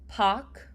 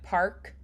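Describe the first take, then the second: First: The R is softened, nearly dropped. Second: The R is fully sounded.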